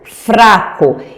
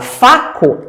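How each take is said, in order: First: The R after the F is pronounced. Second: The R after the F is left out. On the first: "a professora ditou fraco" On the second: "ela fala faco"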